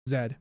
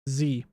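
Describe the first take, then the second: First: The letter is named zed, English style. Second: The letter is named zee, American style.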